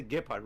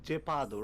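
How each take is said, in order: First: Gepard said the English way, GEH-pard with a hard final d; English reading of Gepard, ending in -pard; English pronunciation. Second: Gepado said the Japanese way, Ge-pa-do with even syllables; Japanese pronunciation. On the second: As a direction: Japanese reading of Gepado, no r, ending on a clear o. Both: Shown as a demonstration. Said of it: "the pronunciation goes like Gepado".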